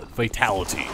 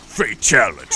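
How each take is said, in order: First: Said in the usual way. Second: Louder, booming game-announcer call of Fatality; hammed-up arcade announcer declaring Fatality; mock fatality announcer. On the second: Shown as a demonstration. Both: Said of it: "That's what the fatal".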